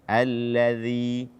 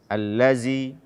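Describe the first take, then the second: First: The middle consonant is a th-like sound. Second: The middle consonant is a z sound. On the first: The speaker calls it right. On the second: The speaker calls it wrong.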